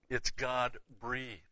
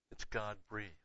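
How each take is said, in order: First: It's God breathed, slow, leaning on God; slow emphasis. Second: Soft echo. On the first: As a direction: lay out each word slowly and weightily. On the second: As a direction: let the phrase fall back to a hushed echo. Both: Shown as a demonstration.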